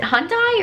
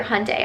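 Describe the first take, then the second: First: Hyundai said as one of two variants, higher-pitched; first Hyundai pronunciation. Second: Hyundai said the second, favored way; preferred Hyundai pronunciation. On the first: Vlogger unsure how the car's name is said, trying Hyundai one way. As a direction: offer the first way of saying Hyundai, questioningly. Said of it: "Is it Hyundai or Hyundai?". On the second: Vlogger weighing two ways to say the car's name, Hyundai in her preferred form. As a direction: offer the other way of saying Hyundai. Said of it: "I think it's Hyundai". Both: Shown as a demonstration.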